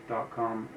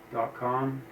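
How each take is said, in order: Both takes have the same delivery.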